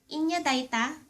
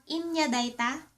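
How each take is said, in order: Both takes have the same delivery.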